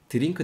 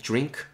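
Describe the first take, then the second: First: The word is said with Korean-style syllables. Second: The word is said with English sounds. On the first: The speaker calls it wrong. "드링크 대신에" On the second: The speaker calls it right. "drink 발음해 주시고요"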